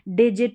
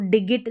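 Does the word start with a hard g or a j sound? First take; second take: j sound; hard g. First: The word starts with a j sound. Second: The word starts with a hard g sound. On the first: The speaker calls it right. "जी को हम ज पढ़ेंगे" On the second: The speaker calls it wrong. "इसको डिगिट नहीं पढ़ेंगे"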